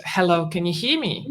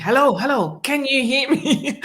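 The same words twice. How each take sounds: First: Said in the usual way. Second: Imitating an insistent caller, raised pitch; more pressing. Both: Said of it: "it became more pressing".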